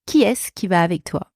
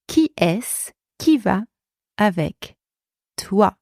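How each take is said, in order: First: Said in the usual way. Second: Chunked, with pauses between. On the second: Shown as a demonstration. Teacher breaks down model phrase.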